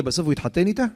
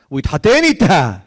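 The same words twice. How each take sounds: First: איתה rising at the end as a question; rhetorical question. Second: התחתן punched loud and high, then falling; emphatic exclamation. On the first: Preacher asking listeners how the match ended, questioning. Question before emphatic answer. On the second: Preacher answering his own question about the marriage, exclaiming. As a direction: proclaim it loudly, hitting התחתן hard. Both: A narrator's reading.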